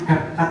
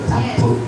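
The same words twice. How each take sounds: First: It is pronounced with English-like vowel sounds. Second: It is pronounced with Indonesian vowel sounds. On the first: It sounds trendy and cool. "kalau biar gaul itu namanya CapCut" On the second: It shows local Javanese pride. "sesuai hurufnya ya capcut"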